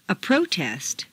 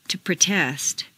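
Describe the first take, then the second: First: PROtest, stressed on the first syllable. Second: ProTEST, stressed on the second syllable. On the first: Teacher models noun "protest", first-syllable stress. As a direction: hit PRO in "protest". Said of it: "first syllable for nouns". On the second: Teacher models verb "protest", second-syllable stress. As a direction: hit TEST in "protest". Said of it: "to the second syllable". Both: Shown as a demonstration.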